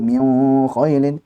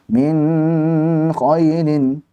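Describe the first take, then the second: First: The n is blurred and hidden into the next sound. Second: The n carries an overly prolonged nasal hum. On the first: "Jangan pula diifakan tadi min khailin" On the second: "jangan min khailin"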